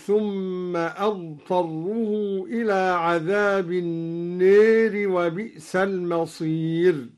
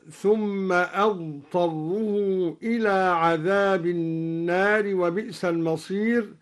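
First: النار with the alif bent toward e, neer; slow chant, lean the alif of النار toward e; imala in al-Nar. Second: Sung, النار with an open alif, naar; sung recitation, alif of النار wide open; sung, standard recitation. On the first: Sheikh demonstrating al-Duri's imala on النار. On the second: Sung, sheikh reciting before the imala. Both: Shown as a demonstration. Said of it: "أمال الدوري ألف النار هكذا".

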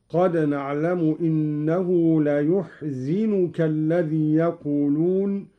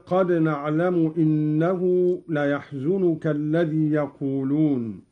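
First: "ليحزنك" said la-yuhzinuka; u on the ya, i on the zay in "ليحزنك"; yu and zi vowels. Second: Said in the usual way. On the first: Shown as a demonstration. Teacher demonstrating Qalun, "ليحزنك" as la-yuhzinuka. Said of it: "بضم الياء وكسر الزاي هكذا".

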